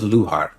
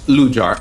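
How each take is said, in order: First: The middle consonant sounds like an h. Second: The middle consonant sounds like English j. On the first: "I'm going with like a Spanish pronunciation" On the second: "Jar, like a jar of pickles"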